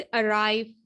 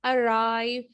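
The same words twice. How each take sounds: First: अराइव, R sounded firmly before the vowel; stressed R. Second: अराइव with the R clearly sounded. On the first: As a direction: make sure the R in अराइव is heard. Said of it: "जोर दे के जो है ना". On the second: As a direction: say अराइव with a firm R before the vowel. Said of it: "आइव करते हैं". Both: Shown as a demonstration.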